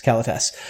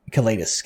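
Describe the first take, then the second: First: "Kalitas" as KAL-uh-tass; alternative pronunciation. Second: "Kalitas" as kuh-LEE-tus; first pronunciation. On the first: Host covering both versions, "Kalitas" as KAL-uh-tass. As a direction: stress the first syllable of "Kalitas", ending in "tass". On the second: Host hedging on the card name, "Kalitas" as kuh-LEE-tus. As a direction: put the stress on "LEE" in "Kalitas". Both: Shown as a demonstration. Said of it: "is it Kalitas or Kalitas?".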